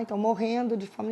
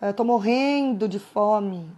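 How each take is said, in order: First: Said in the usual way. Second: Slow, drawn-out mock whine about hunger; hammed-up hungry moan; exaggerated complaint. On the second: Shown as a demonstration. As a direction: stretch "morrendo de fome" out like you're starving. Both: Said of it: "Então, exagero".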